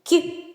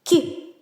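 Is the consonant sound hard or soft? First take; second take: soft; soft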